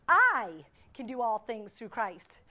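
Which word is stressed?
I. The stress falls on the word "I".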